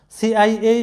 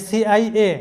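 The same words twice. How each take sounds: The two takes are said the same way.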